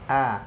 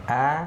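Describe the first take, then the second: First: The vowel sounds neutral, with the mouth moderately open. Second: The same.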